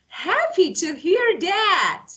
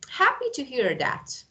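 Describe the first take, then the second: First: It sounds warm and genuinely pleased. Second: It sounds flat and insincere. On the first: The speaker is truly happy. "The second one shows that. that I'm really happy" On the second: The speaker is not really happy. "The first one is like I'm lying"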